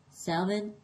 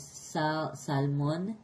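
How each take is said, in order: First: "salmon" with a silent L, SAM-un; English pronunciation. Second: "salmon" with the L sounded, sal-MON; Spanish pronunciation. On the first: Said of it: "I have to say the L because". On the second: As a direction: say "salmon" the Spanish way, clear L and round O. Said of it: "because in Spanish". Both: Shown as a demonstration.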